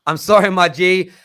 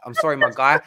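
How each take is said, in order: First: Sorry my G called out loud and higher; jokey louder second apology to a listener; louder mock apology. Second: Said in the usual way. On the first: Real, not acted.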